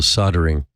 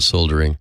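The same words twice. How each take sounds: First: It is said the American way. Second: It is said as it is spelled. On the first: "what in the U S we call soldering" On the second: "even though it's spelled soldering"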